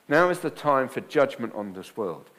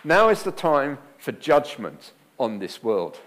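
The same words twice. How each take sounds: First: Second reading, leaning on "Now"; repeated reading. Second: "Now" stressed, slow and loud; preacher's slow, loud scripture reading; emphatic reading. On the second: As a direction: land hard on "Now", slowly. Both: Shown as a demonstration. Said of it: "Here's the first one".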